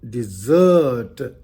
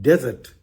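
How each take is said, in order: First: It is said just like the word 'dessert'. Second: It is said unlike the word 'dessert'. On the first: To leave or abandon. "if we use it as a verb, the pronunciation also changes" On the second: A large area of sand. "is a large area of sand"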